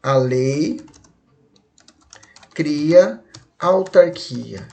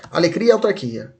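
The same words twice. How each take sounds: First: Long pause after A LEI, drawn-out CRIA; each word held apart for the class; slow and separated. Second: A LEI CRIA blurred into ALEGRIA; quick, joined-up mnemonic; said fast. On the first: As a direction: say "A lei... cria autarquia" very slowly. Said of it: "Se você falar isso aqui rápido". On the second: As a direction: run "alegria, autarquia" together quickly. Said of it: "Se você falar rápido, fica assim". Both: Shown as a demonstration.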